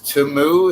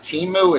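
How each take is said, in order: First: The first vowel sounds like 'oo'. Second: The first vowel sounds like 'ee'. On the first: The speaker calls it right. "it's Tumu. That's what it's called" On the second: The speaker calls it wrong. "it's not Timu"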